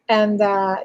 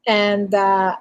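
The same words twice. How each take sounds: The two takes are said the same way.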